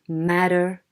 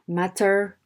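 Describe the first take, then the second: First: The middle T is flapped, like a quick D. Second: The middle T is a clear, full T. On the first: The speaker calls it wrong. "not to say" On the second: The speaker calls it right. "They should say"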